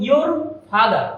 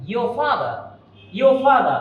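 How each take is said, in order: First: Your with an audible final r, then father; R pronounced. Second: Your father as "yo fada", no r; R silent. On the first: Teacher quoting the usual habit, r heard in your. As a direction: sound the r ending your. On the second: Teacher correcting the habit, your father without r. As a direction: drop the r's ending your and father. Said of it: "এ আরটা হবে না উচ্চারণটা". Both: Shown as a demonstration.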